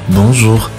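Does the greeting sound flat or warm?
flat. The greeting sounds flat and unsmiling. The conversation starts on a less positive footing. The speaker calls it wrong.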